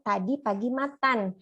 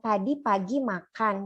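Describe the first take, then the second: First: The last word is said with a t sound. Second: The last word is said with a k sound. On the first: The speaker calls it wrong. "ada kesalahan dalam bunyi keh diubah menjadi teh" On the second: The speaker calls it right. "Contohnya ini tadi ngomong tadi pagi makan"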